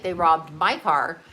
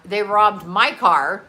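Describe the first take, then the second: First: Said in the usual way. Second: "my" leaned on slow with a lift, "They robbed MY car"; slow down and hit "my" in "They robbed my car"; stress on my. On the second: Shown as a demonstration. Telling friends online, insisting "my" car was robbed, stress on my. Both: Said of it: "all right?".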